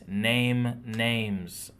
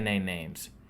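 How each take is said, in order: First: Each word is articulated clearly and separately. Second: The words run together and sound slurred. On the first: The speaker calls it right. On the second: The speaker calls it wrong.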